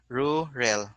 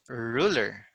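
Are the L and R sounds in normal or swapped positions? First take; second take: swapped; normal. First: The R and L sounds are swapped around. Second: The R and L sounds are in normal positions. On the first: The speaker calls it wrong. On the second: The speaker calls it right.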